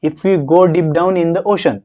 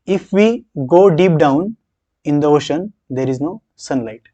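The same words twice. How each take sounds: First: Slow read, holding the pause for after ocean. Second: Slow reading with a pause after down; pausing after down. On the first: Teacher shows students the right pause, slow and deliberate. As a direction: read slowly and break only after ocean. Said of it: "असा pause येणं अपेक्षित आहे". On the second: Teacher reads the sentence aloud with a pause after down. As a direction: read it slowly, breaking after down. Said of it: "बोलताना आपला pause कुठे येणं अपेक्षित आहे". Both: Shown as a demonstration.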